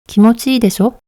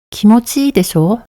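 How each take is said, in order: First: The final syllable is cut short. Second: The final syllable is drawn out long.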